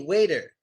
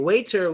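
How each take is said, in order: First: The middle consonant sounds like a soft D. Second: The middle consonant is a crisp T sound. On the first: "we pronounce it as a D" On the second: "instead of saying waiter"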